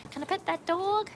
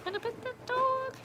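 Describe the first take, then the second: First: Put-on much higher, childlike voice; little kid voice. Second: Put-on much higher, slow childlike voice; little kid voice. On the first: Streamer imitating a child asking to pet a dog, high childlike. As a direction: ask it like an eager small child. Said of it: "said in the, like". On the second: Streamer repeating a child's question, very high and slow. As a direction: ask it like a wide-eyed small child. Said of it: "The same voice".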